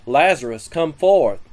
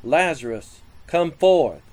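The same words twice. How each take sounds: First: Raised commanding call with forth hit loud; firm read-aloud shout to the dead man. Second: A mildly raised call, a touch louder on forth; understated commanding call. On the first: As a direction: call into the tomb with more force. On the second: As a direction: call Lazarus out of the tomb with modest force. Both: A narrator's reading. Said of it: "Jesus cried with a loud voice".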